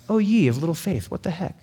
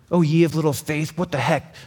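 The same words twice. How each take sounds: First: Softer, encouraging reproach. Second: Mildly angry scripture reading; a touch of annoyed rebuke. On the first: Preacher rereading Jesus' words as encouragement, gently encouraging. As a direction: gently nudge them on, tailing off quietly. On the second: Preacher reading Jesus' words as if angry, mildly angry. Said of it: "read this in an angry tone". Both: Shown as a demonstration.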